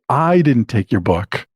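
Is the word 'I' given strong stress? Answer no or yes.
yes. It is said with strong stress on 'I'. Someone else took the book. "it means that I didn't take it, but somebody else did"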